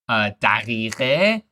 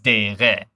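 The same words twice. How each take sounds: First: The word is said in its full form. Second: The word is said in a shortened form.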